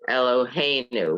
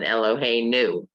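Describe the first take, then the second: First: The stress is on the second-to-last syllable. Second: The stress is on the last syllable. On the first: "It's on the next to the last" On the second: "Normally, it would be at the end"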